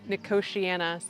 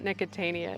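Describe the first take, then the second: First: The word ends with the sounds 'tiana'. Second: The word ends with the sounds 'tania'. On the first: The speaker calls it right. "it's Nicotiana" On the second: The speaker calls it wrong. "it's not Nicotania"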